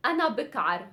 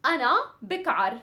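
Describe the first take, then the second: First: Said in the usual way. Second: أنا بكعر rattled off fast; fast drill of أنا بكعر; fast demo. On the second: Shown as a demonstration. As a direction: snap out أنا بكعر quickly. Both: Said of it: "really quick".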